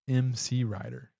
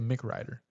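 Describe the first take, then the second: First: The first part is spelled out as two letters. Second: The first part is said as one syllable, 'Mick'. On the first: The speaker calls it right. "It's M C Ryder" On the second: The speaker calls it wrong. "you say [name]"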